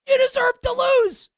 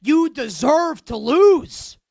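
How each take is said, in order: First: You deserve to lose, shot up much higher in disbelief; high exasperated cry. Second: You deserve to lose, each word slow and a little louder; slow emphatic. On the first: Host yells at the coach on TV, high exasperated cry. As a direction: wail it up high at the TV. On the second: Host scolds the coach, slow and emphatic. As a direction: spell out "lose" slowly and firmly. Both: Shown as a demonstration. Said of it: "repeated with rising fury".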